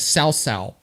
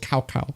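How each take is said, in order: First: Each syllable begins with an S-like sound. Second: Each syllable begins with a K sound. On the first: "the correct pronunciation is" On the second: "they call it"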